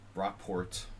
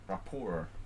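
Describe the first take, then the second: First: The name is said with an English pronunciation. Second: The name is said with a French pronunciation. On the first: "if you pronounce it like Rockport, you know, it sounds kind of English" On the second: "but rapport is French"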